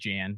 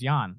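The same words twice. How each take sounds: First: The name begins with a J sound, like jam. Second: The name begins with a Y sound, like yawn. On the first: The speaker calls it wrong. "Looks like Jan" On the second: The speaker calls it right. "it's pronounced like you're about to fall asleep"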